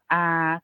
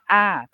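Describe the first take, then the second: First: The pitch stays level in the middle. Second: The pitch falls from high to low. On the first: "siang saman atau middle tone yang kita sebutnya a" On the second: "siang to atau falling tone yang kita sebutnya a"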